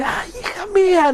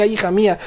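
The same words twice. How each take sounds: First: Much higher wail, breaking into a laugh; anguished cry. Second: Said in the usual way. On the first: Shown as a demonstration. Father's scream re-enacted for listeners, high wailing cry. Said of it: "Así de". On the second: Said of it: "Aquí dice".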